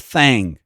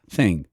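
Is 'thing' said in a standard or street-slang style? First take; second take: slang; standard. First: The word is said in street-slang pronunciation. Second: The word is said in standard pronunciation. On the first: The speaker calls it wrong. "vício de linguagem terrível... bem tipo de guetão mesmo" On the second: The speaker calls it right. "ela é pronunciado thing"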